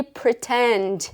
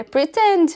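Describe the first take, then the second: First: "pretend" with careful, drawn-out English sounds; "pretend" spoken slowly, stressed on the second syllable; correct English pronunciation. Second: "pretend" raised in pitch, as her old mistake; re-enacted wrong "pretend", pitched up; mispronounced English. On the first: Shown as a demonstration. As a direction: model the proper English "pretend". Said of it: "faltava aquele pretend". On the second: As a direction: insist on a learner's faulty "pretend". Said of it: "Eu falava".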